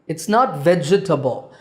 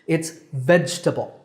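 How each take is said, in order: First: It has four syllables, ending in 'table'. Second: It has three syllables, veg-ta-ble. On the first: The speaker calls it wrong. "there's no table in it" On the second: The speaker calls it right. "It's veg-ta-ble"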